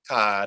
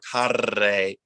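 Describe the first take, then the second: First: The R is a very brief tap. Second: The R is a long, dramatic trill. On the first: The speaker calls it right. "It's just very, very, very quick" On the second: The speaker calls it wrong. "it's not a, a rolled uh, dramatic R"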